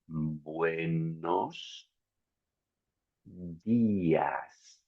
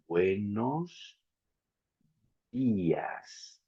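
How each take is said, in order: First: It is said slowly, syllable by syllable. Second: It is said a little more quickly.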